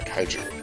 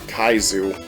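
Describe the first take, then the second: First: The middle consonant sounds like 'j'. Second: The middle consonant sounds like 'z'. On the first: The speaker calls it right. "I think it's Kaiju" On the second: The speaker calls it wrong. "I said it wrong"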